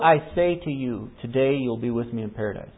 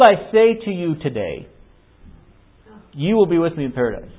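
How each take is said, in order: First: The pause comes before the word today. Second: The pause comes after the word today. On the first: Arrival in paradise happens that same day. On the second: Today marks when the promise is spoken, not the arrival.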